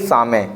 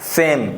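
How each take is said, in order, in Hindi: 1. इसे दो अक्षरों में कहा जाता है, saa-may। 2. इसे एक अक्षर में कहा जाता है, saym। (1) "ना कि सामे" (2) "सेम पढ़ेंगे इसे"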